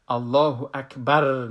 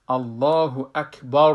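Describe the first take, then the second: First: الله اکبر said with a light thin ra; wrong takbir. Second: الله اکبر said slowly and full; correct takbir. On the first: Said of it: "نگوییم". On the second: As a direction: say الله اکبر slow with a heavy ra. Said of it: "بگوییم". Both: Shown as a demonstration.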